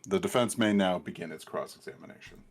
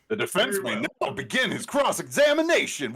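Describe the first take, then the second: First: It is read flatly, with little enthusiasm. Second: It is read with lively, enthusiastic energy. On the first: The speaker calls it wrong. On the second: The speaker calls it right.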